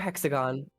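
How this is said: It is said in an American way.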